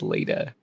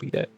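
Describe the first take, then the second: First: The name is said like Leda. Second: The name is said like Lita. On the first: The speaker calls it right. "It's Leda" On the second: The speaker calls it wrong. "It's not Lita"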